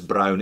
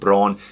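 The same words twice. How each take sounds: First: It is said with a German pronunciation. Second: It is said with an English pronunciation. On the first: The speaker calls it right. "If you're a German speaker, it's Braun" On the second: The speaker calls it wrong. "it's not Braun"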